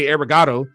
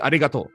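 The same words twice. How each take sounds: First: It is said with an English accent. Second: It is said with a Japanese accent. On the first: The speaker calls it wrong. "I don't want to say arigato" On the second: The speaker calls it right. "I want to learn how to actually say it correctly"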